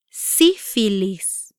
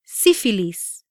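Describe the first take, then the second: First: "Sífilis" slowly, syllables separated; "Sífilis" broken into drawn-out syllables; slow pronunciation demo. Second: Said in the usual way. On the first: Shown as a demonstration. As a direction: stretch out "Sífilis" for learners. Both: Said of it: "try pronouncing these words".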